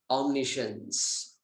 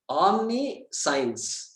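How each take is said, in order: First: It is said with an American English accent. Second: It is said with an Indian English accent. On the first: "Then American" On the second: "Indian thing"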